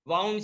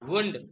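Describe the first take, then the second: First: The vowel is an 'ow' sound. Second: The vowel is a long 'oo' sound. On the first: It is the past tense of wind. "वाउंड से बोलो तो wind का past tense होता है" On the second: It means an injury. "वुंड W O यू N D यानी घाव"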